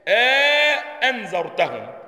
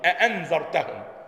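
First: A long vowel separates the two glottal stops. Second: Both glottal stops are fully said, nothing between. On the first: "يدخلونها، يعني الألف" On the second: "يحققون"

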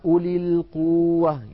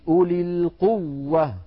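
First: The doubled w is said lightly, without pressure. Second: The doubled w is pressed firmly with emphasis. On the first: The speaker calls it wrong. "إن لم نضغط ينبهوننا" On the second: The speaker calls it right. "بين التشديد"

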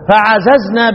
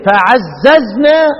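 First: The middle z sound is single. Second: The middle z sound is doubled. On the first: We overcame. "خففها، تقرأ ايه فعززنا" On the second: We multiplied and strengthened them. "بدل ما تقول ايه فعززنا"

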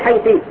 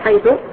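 First: The word ends in the vowel i. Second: The word ends in the vowel u. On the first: "على الكسر وتقول حيثي" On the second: "يجوز لك أن تبنيها على الضم"

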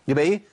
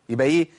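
No difference in how they are said.

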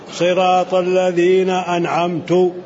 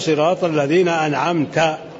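First: The last word ends with a 'u' vowel. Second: The last word ends with an 'a' vowel. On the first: The reciter is the one who bestowed favor. The speaker calls it wrong. "هذا غلط كبير جدا، قلب المعنى وجعل هو المنعم" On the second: The one addressed is the one who bestowed favor. The speaker calls it right. "لابد أن يقول صراط الذين أنعمت"

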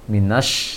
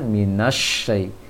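First: The sh sound is short and not doubled. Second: The sh sound is held long and doubled. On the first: The speaker calls it wrong. "Tadi agak kesulitan untuk menyambung na fathah ke alif lam syamsiah" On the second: The speaker calls it right.

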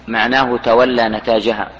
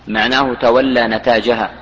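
No difference in how they are said.

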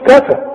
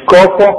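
First: The syllables are said light and thin. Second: The syllables are said heavy and full. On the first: The speaker calls it right. "كفى مش كفى" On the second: The speaker calls it wrong. "مش كفى"

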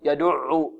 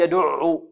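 No difference in how they are said.

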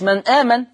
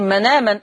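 First: The glottal stop is clearly kept between the words. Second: The glottal stop is dropped and the words run together. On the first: The speaker calls it wrong. "أنا ما قلتش من آمن" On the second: The speaker calls it right. "وهنا شايفين من آمن"

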